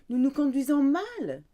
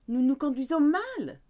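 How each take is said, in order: The two takes are said the same way.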